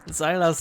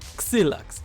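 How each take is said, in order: First: The name ends with a plain s sound. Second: The name ends with a ks sound. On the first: "Xylas is okay" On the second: "in Polish you just say Xylax because X is K S"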